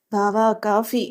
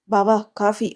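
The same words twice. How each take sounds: First: Drawn-out call to get attention; narrated yell, kept at storytelling volume. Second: Said in the usual way. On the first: A narrator's reading. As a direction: call over music without really shouting. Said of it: "అంటూ అరిచి". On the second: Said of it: "బావా coffee అంటూ అరిచి".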